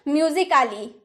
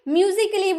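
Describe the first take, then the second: First: An extra vowel is sounded before the final -ly. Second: No vowel is sounded before the final -ly. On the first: The speaker calls it wrong. "ए का sound आ में हम लोग निकालते हैं" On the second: The speaker calls it right. "ए को हम लोग चुप करवा दिए"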